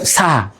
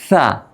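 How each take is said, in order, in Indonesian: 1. Konsonannya s biasa yang mendesis. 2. Konsonannya mirip th, lidah di antara gigi. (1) "bukan sa" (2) "tapi sa. Lidah kita di ujung antara gigi"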